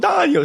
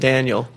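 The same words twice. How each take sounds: First: The name is said with an Italian accent. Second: The name is said with an American accent. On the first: "oh, Daniel, he would say to me" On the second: "But we know it's Mario and Daniel"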